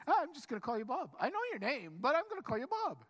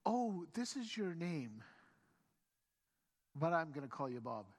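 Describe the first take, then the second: First: Fast, high, comic insistence; breezy insistence. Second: Deadpan renaming. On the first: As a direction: brush off the objection, quick and high-pitched. Acted breezy insistence on renaming. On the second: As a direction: calmly announce it after a deliberate pause. Mock first meeting, renaming a stranger. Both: Acted.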